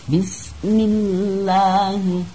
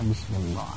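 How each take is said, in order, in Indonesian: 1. Huruf L pada Allah dibaca tipis dan ringan. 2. Huruf L pada Allah dibaca tebal dan berat. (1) "Karena sebelum lam jalalah berharkat kasroh" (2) "tidak dibaca"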